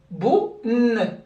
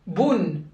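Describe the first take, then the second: First: "boun" split into bou, then a held n; segmented syllable. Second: "boun" as one joined syllable; closed syllable. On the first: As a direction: break "boun" before its long hummed n. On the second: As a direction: say "boun" whole, ending on a sounded n. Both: Shown as a demonstration. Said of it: "Comment ça se prononce?".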